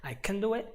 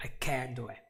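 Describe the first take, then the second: First: CAN reduced and quick, weight on DO; unstressed CAN. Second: CAN'T said completely with stress; full CAN'T. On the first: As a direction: glide over CAN and land on DO. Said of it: "here you just say it". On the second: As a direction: give CAN'T its whole vowel and weight. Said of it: "you say it completely". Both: Shown as a demonstration.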